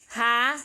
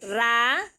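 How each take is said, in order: First: The R is a strong guttural sound. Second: The R is a light single tap. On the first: "E o som forte do R?" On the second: "O som fraco do R é o quê?"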